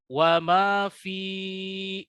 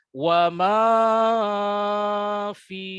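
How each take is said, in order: First: The vowel of 'fi' is drawn out. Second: The vowels of 'ma' and 'fi' are drawn out. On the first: "yang salah adalah wa ma fi, itu salah" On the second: "Apalagi ma-nya panjang juga"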